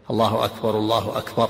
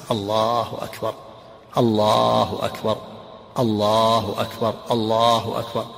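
First: "الله أكبر، الله أكبر" joined in one breath with no pause; imitating muezzins who rush the call; run together. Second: Each "الله أكبر" slow with a pause after it; the preferred measured adhan, one phrase at a time; slow, separated takbir. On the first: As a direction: link both takbirs without stopping. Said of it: "مثل يفعل بعض المؤذنين". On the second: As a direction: stop at the end of every "الله أكبر". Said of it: "كل جملة منفصلة عنه". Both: Shown as a demonstration.

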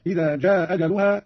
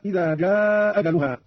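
First: "جاء أجلها" with one hamza dropped and a brief "aa"; short madd. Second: "جاء أجلها" with one hamza, the "aa" held long; long madd. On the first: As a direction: keep the vowel of "جاء" short before "أجلها". (قصر المد في "جاء") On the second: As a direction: slowly stretch "جاء" into "أجلها". (مد طويل في "جاء") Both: Shown as a demonstration. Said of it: "مع المد والقصر".

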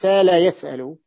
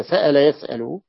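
First: سال يسأل with no glottal stop, the vowels gliding long; hamza softened. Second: سأل يسأل with a clear glottal stop in each word; hamza pronounced. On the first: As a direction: let the hamza melt away in سال يسأل. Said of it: "ومن قال بتسهيل الهمزة". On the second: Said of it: "بتحقيق الهمزة". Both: Shown as a demonstration.

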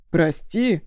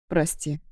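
First: Громче, с гневным недоумением; переспросить, не веря ушам; возмущённое переспрашивание. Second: Виноватый вздох. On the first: Друг переспрашивает с гневом. («Прости?» громче, с возмущённым недоверием) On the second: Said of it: "вздохнул я". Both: A narrator's reading.

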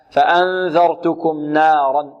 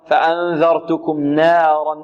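First: نارا slowly with a pure open alif, no tilt; correct recitation. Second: نارا slowly with its alif leaning toward ee; wrong imala. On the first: Teacher slowly giving students the corrected reading, pure alif. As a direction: recite نارا with a clean full fatha. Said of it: "لا". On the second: Teacher slowly modelling the mistake for students, tilted alif. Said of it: "يريد أن يخلص النون من الراء فيقول". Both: Shown as a demonstration.

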